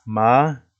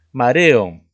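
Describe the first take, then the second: First: Ma-re-o with a clear break between each syllable; split into syllables. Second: Said in the usual way. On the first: Shown as a demonstration. Teacher dividing the word for students, syllable by syllable. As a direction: tap out Ma-re-o one syllable at a time. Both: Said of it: "se divide en tres sílabas".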